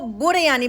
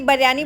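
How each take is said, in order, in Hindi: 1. इसे वैसे बोला गया है जैसे श्रीलंका के लोग बोलते हैं। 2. इसे वैसे बोला गया है जैसे लाहौर के लोग बोलते हैं। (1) "जो श्रीलंकन हैं वो इसको बुरयानी बोलते हैं" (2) "पाकिस्तान में लाहौरी बिरयानी बोलते हैं"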